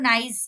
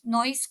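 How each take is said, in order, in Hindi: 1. स्वर 'ai' की तरह बोला गया है। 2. स्वर 'oi' की तरह बोला गया है।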